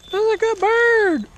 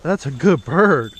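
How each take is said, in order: First: Squeaky falsetto praise, slow; sing-song high praise for a good bird. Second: Said in the usual way. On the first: Real, not acted. Praising the hawk on the glove.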